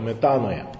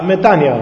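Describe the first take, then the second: First: The vowel after the n sounds like 'oy'. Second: The vowel after the n sounds like 'ee'. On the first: This is the Western reading. "altă citire a occidentală" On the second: This is how Greeks say it. "așa pronunță grecii"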